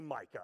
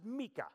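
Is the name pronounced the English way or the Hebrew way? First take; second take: English; Hebrew. First: The name is said with an English pronunciation. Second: The name is said with a Hebrew pronunciation. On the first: This is how outsiders say the name. "You say Micah" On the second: This is how the speaker's own people say the name. "but we pronounce it Micah"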